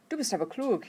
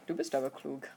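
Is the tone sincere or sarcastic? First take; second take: sincere; sarcastic. First: It is said sincerely, as real praise. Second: It is said sarcastically, mocking the listener.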